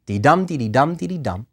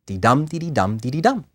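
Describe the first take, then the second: First: Sing-song limerick beat, dee light, dum hit; limerick rhythm. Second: "Dee-dum, dee-dee-dum" chanted, each dum stressed; limerick rhythm. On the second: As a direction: keep the bouncing beat going. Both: Shown as a demonstration. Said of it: "How does a limerick meter go?".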